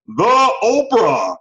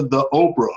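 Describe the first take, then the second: First: "the Oprah" drawn out slowly, much higher and louder, like an announcer; hammed-up celebrity name. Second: Said in the usual way. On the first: Shown as a demonstration. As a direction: stretch "the Oprah" out big and grand for a joke. Repeats the Oprah with flourish.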